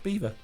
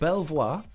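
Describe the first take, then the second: First: The name is said like the word 'beaver'. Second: The name is said as spelled, 'Bel-voir'. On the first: The speaker calls it right. "It's pronounced Beaver" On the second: The speaker calls it wrong. "as it is written, that's what I used to call it"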